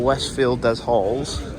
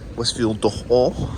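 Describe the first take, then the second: First: It is said with an English accent. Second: It is said with a French accent.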